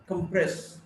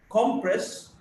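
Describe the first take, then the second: First: "compress" as com-PRESS; weak start, strong PRESS in "compress"; stress on second syllable. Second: "compress" as COM-press; stress on first syllable. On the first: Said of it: "stressed in the second syllable". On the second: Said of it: "stressed in the first syllable". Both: Shown as a demonstration.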